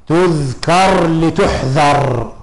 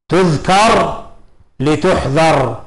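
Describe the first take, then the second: No difference in how they are said.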